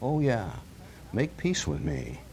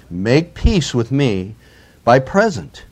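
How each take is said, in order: First: Satan tempting. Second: Said in the usual way. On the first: Acted. Satan tempting believers in their trials, hushed and coaxing. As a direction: lure them in, hushed and sly. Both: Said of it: "Doesn't that sound like Satan talking".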